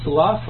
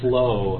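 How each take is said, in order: First: The word rhymes with 'enough', ending in an f-sound. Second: The word rhymes with 'though', ending in a vowel. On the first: "That would be the slough of the swamp. And that's actually a word" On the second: "Nobody says it that way"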